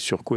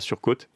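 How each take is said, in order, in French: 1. Le mot finit sur une voyelle, pas de t final. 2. Le mot finit par un t final prononcé. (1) "la prononciation, pas de E" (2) "ce n'est pas surcôte"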